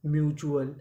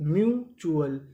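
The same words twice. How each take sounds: First: Said in the usual way. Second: mutual split as myu, then chu-al; syllable by syllable. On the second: Shown as a demonstration. Teacher joining two codes for learners, mutual in separate pieces. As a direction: stretch mu and pause before चुअल. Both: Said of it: "तो पूरी meaning".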